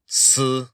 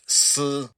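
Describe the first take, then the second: First: The syllable is said with the first tone. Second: The syllable is said with the first tone.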